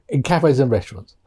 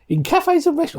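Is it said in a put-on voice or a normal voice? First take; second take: normal; put-on. First: It is said in the speaker's normal voice. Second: It is said in a put-on comic voice.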